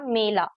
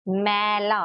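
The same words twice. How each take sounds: First: "मेला" with a closer ay sound; ए vowel. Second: "मैला" with an open, held ai as in "cat"; ऐ vowel. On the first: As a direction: keep the first vowel of "मेला" as ay. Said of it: "एक ए की मात्रा लेती". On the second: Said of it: "pronounce करने का तरीका थोड़ा different". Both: Shown as a demonstration.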